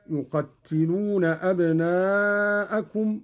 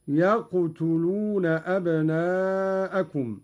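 First: Said in the usual way. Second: "يقتلون" said yaqtuluna, with no doubling; slow recitation with "يقتلون" as yaq-tu-lu-na; open ya, still qaf, u on ta. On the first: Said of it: "قرأ قالون بفتح الياء". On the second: Shown as a demonstration. Teacher demonstrating Qalun's reading, "يقتلون" lightened to yaqtuluna. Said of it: "بفتح الياء".

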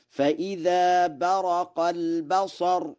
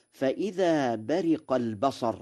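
First: High slow chant, "برق" as baraqa; Warsh fatha on ra. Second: "برق" recited as bariqa; kasra on ra. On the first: Teacher models Warsh's reading, high slow chant with "برق" as baraqa. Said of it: "بفتح الراء في برق". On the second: Teacher quotes the verse, saying "برق" as bariqa with kasra. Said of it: "وبرق بالكسر". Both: Shown as a demonstration.

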